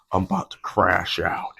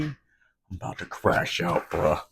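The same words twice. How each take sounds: First: Low, altered voice playing at losing it; deadpan joke threat; mock meltdown. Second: Low breathy mock threat to lose it; mock meltdown. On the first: Spilling coffee, joking to the camera, low mock menace. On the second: Spilling coffee, jokingly threatening to the camera, mock menace. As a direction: fake a quiet crash-out. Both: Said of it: "I'm just kidding".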